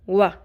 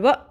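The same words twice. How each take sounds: First: The vowel ends smoothly without a catch. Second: The vowel is cut off with a sharp catch. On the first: The speaker calls it right. "सिर्फ वाव ज़बर" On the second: The speaker calls it wrong. "ऐसे नहीं बोलना"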